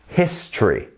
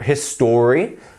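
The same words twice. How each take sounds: First: The word is said with two syllables. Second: The word is said with three full syllables. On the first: The speaker calls it right. "you're missing out this whole section here" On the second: The speaker calls it wrong. "It's not histor history"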